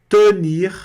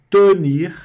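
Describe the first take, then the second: Both takes have the same delivery.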